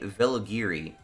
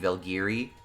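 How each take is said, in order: First: A vowel is heard after the L sound. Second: No vowel is heard after the L sound. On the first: "it sounds like their name is supposed to be" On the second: "it's possible that the U is silent"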